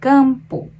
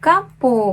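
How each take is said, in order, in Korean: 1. 첫 모음은 더 둥근 소리입니다. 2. 첫 모음은 열린 'a' 소리입니다. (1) "약간 좀 더 동그란 소리가" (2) "깜뽀보다는"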